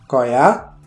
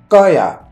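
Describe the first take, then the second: First: The first consonant is a plain k sound. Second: The first consonant is a tense doubled k. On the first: The speaker calls it wrong. "ça s'écrit koya" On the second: The speaker calls it right. "ça se prononce koya avec la double consonne"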